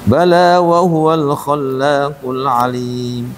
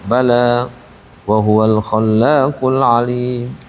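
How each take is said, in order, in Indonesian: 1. Bacaannya mengalir terus tanpa jeda setelah kata pertama. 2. Bacaannya berhenti dengan jeda setelah kata pertama. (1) "lebih bagus dilanjutin" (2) "bukan berhenti"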